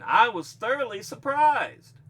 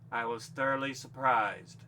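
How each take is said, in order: First: It is said with excited surprise. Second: It is said flatly, without emotion.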